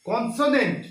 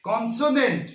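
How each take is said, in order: No difference in how they are said.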